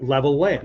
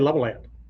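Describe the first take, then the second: First: The L between the words is held long. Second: The L between the words is short and merged. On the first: The speaker calls it right. "we hold consonants for twice as long" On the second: The speaker calls it wrong. "We don't say level land. Level land is sounds like somebody's name"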